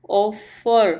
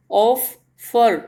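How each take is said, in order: First: Said in the usual way. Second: ऑफर in two slow pieces, ऑफ, then फर; split into syllables. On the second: Shown as a demonstration. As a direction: break ऑफर apart with a clear pause between ऑफ and फर. (ऑफर को दो टुकड़ों में, रुककर बोलें) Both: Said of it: "दो टुकड़ों में हमने इसको डिवाइड किया".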